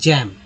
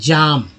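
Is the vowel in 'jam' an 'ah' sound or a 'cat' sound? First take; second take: cat; ah. First: The vowel is a short front 'cat' sound. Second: The vowel is a long open 'ah' sound. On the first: The speaker calls it right. "जैम बोलते हैं" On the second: The speaker calls it wrong. "जाम नहीं बोलते"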